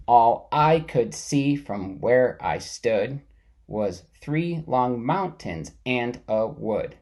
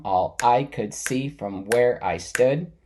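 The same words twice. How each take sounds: First: Slow, every second syllable stressed; reading "All I could see from where I stood" in da-dum beats, slowly; metered reading. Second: Slow, stress on "I", "see", "where", "stood"; teacher repeating the line with its meter stressed. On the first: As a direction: tap out the iambs as you read. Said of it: "say the dumb with more stress". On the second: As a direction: beat out the line's iambs. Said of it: "That's called meter". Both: Shown as a demonstration.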